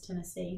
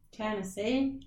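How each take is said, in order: First: It is said in a plain, neutral accent. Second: It is said in a Southern American accent. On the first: The speaker calls it wrong. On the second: The speaker calls it right.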